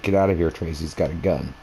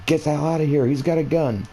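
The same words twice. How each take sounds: First: Said in the usual way. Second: Higher, urgent yelled warning; retold yell. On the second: Warning Trace about the gunman, urgent higher yell. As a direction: pitch jumps up to shout the warning. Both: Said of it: "I yelled at my friend".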